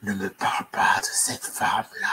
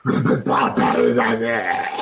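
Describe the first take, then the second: First: Chuchoté, grave et sinistre; murmure-le comme une poupée maudite; chuchotement inquiétant. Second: Grave et menaçante, plus forte; lâche-le d'une grosse voix de poupée maudite; voix grosse bizarre. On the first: (voix bizarre chuchotée et grave) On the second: (grosse voix grave et menaçante façon Chucky) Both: Acted. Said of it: "Une voix bizarre".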